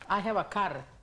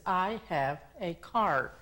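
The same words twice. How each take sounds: First: The r at the end is rolled. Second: The r at the end is not rolled. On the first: The speaker calls it wrong. "enrollamos la R como la R de, de español" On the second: The speaker calls it right. "lo que queremos decir es"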